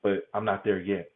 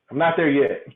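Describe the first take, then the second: First: Said in the usual way. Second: Laughing. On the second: Real, not acted. Repeats it with a laugh.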